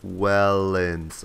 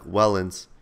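First: "Wellens" drawn out slowly and evenly; sounded out. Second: Said in the usual way. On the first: Retold or imitated. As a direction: stretch both syllables of "Wellens". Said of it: "I, like, sounded out". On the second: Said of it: "I'm like".

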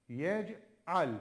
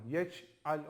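First: "yec'al" with the c popped out crisply; bouncing c. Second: "Yec'al" with the c softened to a ç, the mistake; wrong ç sound. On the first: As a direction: say "yec'al" with a clear popping c. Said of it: "C'yi mutlaka arkadaşlar patlatarak okuyun". ("yec'al" kalkaleli, c patlatılarak) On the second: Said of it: "Ç'ye çevirmeden ama". ("Yec'al" ç ile, yanlış okuyuş) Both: Shown as a demonstration.

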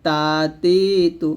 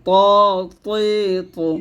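First: তা তি তু with light, gentle dental t; soft thin t. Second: ত তৈ তু dense and resonant, rounded vowels; deep thick t. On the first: Teacher contrasting with heavy letter, soft t. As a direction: keep তা, তি, তু thin, unthickened. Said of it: "নরমভাবে". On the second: Teacher showing the fuller sound, thick t. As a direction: let the heavy t ring in ত, তৈ, তু. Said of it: "গাঢ় করে উচ্চারণ করতে হবে". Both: Shown as a demonstration.

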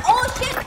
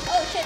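First: Sharp, loud, high cry of fright; startled shout. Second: Said in the usual way. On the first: Real, not acted. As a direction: yell it in sudden alarm. Startled in game, said twice.

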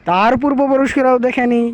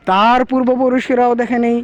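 The two takes are said the same way.

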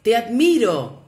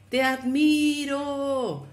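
First: Loud, high call across the valley; father shouting praise toward the mountain. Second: Higher, slow and distant echo; the mountain echo answering the father; far-off echo. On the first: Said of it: "dirigiéndose a la montaña, gritó". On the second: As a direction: let it float back from far away. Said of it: "La voz respondió". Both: A narrator's reading.

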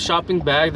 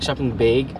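First: Said in the usual way. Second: Canadian "beg" for BAG; Canadian accent. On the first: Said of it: "instead of shopping bag". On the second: Retold or imitated. Asking partner how Canadians say it, Canadian accent. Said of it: "they go, like".

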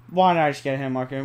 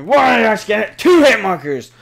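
First: Said in the usual way. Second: High, very loud indignant yelling; outraged shout. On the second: Real, not acted. Player protesting two hit markers, outraged shout. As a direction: shout it in disbelief at the game.

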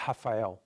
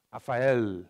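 First: Rafael said "Ha-fa-eu"; Brazilian pronunciation. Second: Rafael with a held L at the end; nonexistent final L. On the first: Teacher giving own name Brazilian-style, Rafael as "Ha-fa-eu". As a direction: start Rafael on an h, end it on u. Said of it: "in Brazil, we pronounce like". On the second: Teacher showing a wrong form, Rafael ending in a clear L. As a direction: sound the final L of Rafael fully. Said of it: "No, doesn't exist". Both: Shown as a demonstration.

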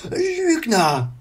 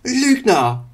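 First: High, loud angry scream; furious shout. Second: High, loud angry shout; furious shout. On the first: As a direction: shout while striking. Wandel swings at Illidan. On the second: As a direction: scream it at him. Wandel shouts at Illidan. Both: Acted. (wütender Schrei)

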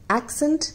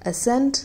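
First: एक्सेंट with stress on the first syllable, AK-sent; accent said slowly. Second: एसेंट with stress on the second syllable, uh-SENT; ascent said slowly. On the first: Teacher pronouncing एक्सेंट for Hindi learners, stressing the first syllable. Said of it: "आज बात". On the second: Teacher contrasting एसेंट with accent, stressing sent. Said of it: "सेंट पे लगेगा". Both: Shown as a demonstration.

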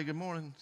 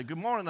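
First: Tossed-off falling good morning; offhand, careless hello; flippant greeting. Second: High, loud bright hello; sing-song good morning to a passerby; cheery greeting. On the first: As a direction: throw it away casually. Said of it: "It's just flippant". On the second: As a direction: call it out cheerfully in passing. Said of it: "you walk past them and say". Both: Shown as a demonstration.

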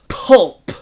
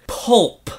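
First: "Pulp" punched louder; harsh pulp. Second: "Pulp" said slowly with a disgusted edge. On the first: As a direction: spit "Pulp" out hard. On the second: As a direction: savor "Pulp" as something gross. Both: Shown as a demonstration. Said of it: "Just listen to the word".

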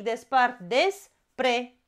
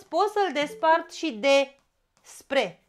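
First: Despre split slowly as des-pre; phonetic split. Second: Despre split as de-spre with a pause; morphological split. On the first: Teacher showing phonetic split, slow despre. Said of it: "după principiul fonetic". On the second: Teacher showing compound split, de-spre. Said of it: "pentru că e cuvânt compus". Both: Shown as a demonstration.

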